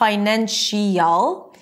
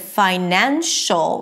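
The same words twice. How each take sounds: First: The ending splits into two vowels, like 'shee-ul'. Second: The sh links straight into a single 'shul' syllable. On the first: The speaker calls it wrong. "It's not financial. You don't hear two vowels" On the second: The speaker calls it right. "you don't hear this -iel sound"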